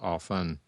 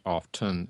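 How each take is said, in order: First: The T in the middle is silent. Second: The T in the middle is pronounced. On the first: The speaker calls it right. "the long-standing correct pronunciation of often is without the T" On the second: The speaker calls it wrong. "It's not often"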